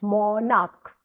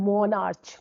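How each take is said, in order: First: The word ends with a k sound. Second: The word ends with a ch sound. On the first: The speaker calls it right. "We call it मोनार्क" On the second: The speaker calls it wrong. "Not मोनार्च"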